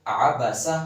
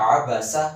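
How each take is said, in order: The two takes are said the same way.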